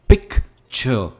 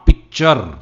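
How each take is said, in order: First: The word ends without an r sound. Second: The word ends with an r sound. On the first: The speaker calls it right. "हम आर को pronounce नहीं करते" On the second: The speaker calls it wrong. "And not पिक्चर"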